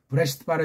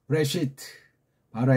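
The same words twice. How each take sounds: First: Both words run together plainly, without a pause. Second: The first word is stressed, then a pause. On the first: The speaker calls it wrong. "그냥 브레시트 바라 이건 멋이 없는 거예요" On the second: The speaker calls it right. "브레시트에 좀 뭔가 힘을 주고 좀, 좀 숨을 멈췄다가 그 다음 쫙 읽어 제끼는"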